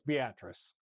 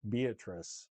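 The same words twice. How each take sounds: First: It is said the way locals pronounce it. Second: It is said the way outsiders pronounce it. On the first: People from the area say it this way. The speaker calls it right. "No, it's Beatrice" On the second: Someone not from the area says it this way. The speaker calls it wrong. "they say Beatrice"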